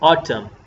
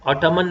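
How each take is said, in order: First: The word ends in m with no n. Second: The word ends with an added n sound. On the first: The speaker calls it right. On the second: The speaker calls it wrong.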